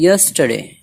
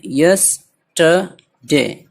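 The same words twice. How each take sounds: First: Said in the usual way. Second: yesterday very slowly, in three separate parts; syllable by syllable. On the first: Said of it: "मिला करके पढ़ना है". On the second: Shown as a demonstration. Teacher counting three parts, yesterday syllable by syllable. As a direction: split yesterday into yes, ta, de with gaps. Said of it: "तीन है इसमें".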